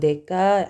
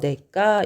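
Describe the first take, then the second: First: The second consonant is plain, not tensed. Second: The second consonant is tensed. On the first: The speaker calls it wrong. "근데 내가 이렇게 발음하는 거는 불편해" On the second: The speaker calls it right. "사이시옷을 추가를 해서 내과 이렇게 발, 발음이 되는 거야"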